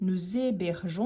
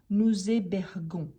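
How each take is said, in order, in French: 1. Le g est doux, comme le s dans 'measure'. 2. Le g est dur, comme le g dans 'go'. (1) "on dit nous hébergeons" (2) "et pas nous hébergons"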